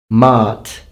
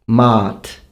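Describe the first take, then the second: Both takes have the same delivery.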